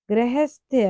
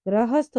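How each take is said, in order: First: गृहस्थ with e sounds, like grehest; wrong pronunciation. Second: गृहस्थ with a sounds, like grahasth; correct pronunciation. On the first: Teacher reading out the error, गृहस्थ as grehesth. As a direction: say गृहस्थ as gre-hesth. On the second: Teacher correcting the word, गृहस्थ as grahasth. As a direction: say गृहस्थ as gra-hasth. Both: Shown as a demonstration. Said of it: "गृहस्थ होता है".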